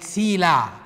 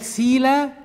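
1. تنتهي الكلمة بصوت حلقي. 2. تنتهي الكلمة بصائت مفتوح بسيط. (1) "بس الإين هنا بقى نطقناها" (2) "بدل ما يتقال سيلا"

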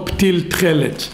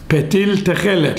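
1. אחרי העיצור הראשון אין תנועה. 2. אחרי העיצור הראשון יש תנועה קצרה. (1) "לא פטיל תחלת" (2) "כי בתחילת מילה זה שוונה"

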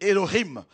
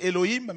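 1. Le nom se prononce avec des sons hébreux. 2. Le nom se prononce comme l'orthographe française le suggère. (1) "mais c'est Elohim" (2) "Ça écrit en français Elohim"

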